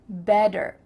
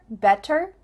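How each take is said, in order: First: The middle consonant sounds like a D. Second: The middle consonant is a clear T.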